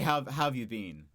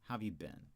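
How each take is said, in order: First: 'Been' sounds like the word 'bean'. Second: 'Been' does not sound like 'bean'. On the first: The speaker calls it wrong. "I wouldn't say" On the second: The speaker calls it right. "I'd always say been"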